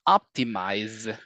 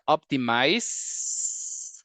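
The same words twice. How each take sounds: First: The word ends with a buzzing z sound. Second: The word ends with a hissing s sound. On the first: The speaker calls it right. "it's optimize. It ends with the Z" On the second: The speaker calls it wrong. "it's not optimize as in s-"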